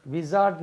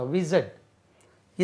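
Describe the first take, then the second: First: विज़ार्ड with a long aa in the middle; the mistaken विज़ार्ड, long aa; wrong pronunciation. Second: विज़र्ड slowly with a short er; slow and clear: विज़र्ड; correct pronunciation. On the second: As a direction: wizard said properly and slowly. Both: Shown as a demonstration. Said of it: "विज़ार्ड नहीं होता".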